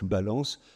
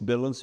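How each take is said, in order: First: It is pronounced the French way. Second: It is pronounced the English way. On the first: "on peut aussi les prononcer autrement" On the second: "mots anglais que vous reconnaissez"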